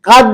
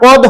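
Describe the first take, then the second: First: The vowel is an open a sound. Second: The vowel is a rounded o sound. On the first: The speaker calls it wrong. "দেখেন কাদ দিছে" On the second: The speaker calls it right. "এখানে কদ হবে"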